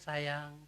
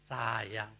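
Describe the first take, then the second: First: The word is said warmly and affectionately. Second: The word is said in a harsh, unaffectionate tone. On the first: The listener feels loved and happy. "mereka akan senang" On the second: The same word carries a different meaning. "dengan intonasi dan nada yang berbeda"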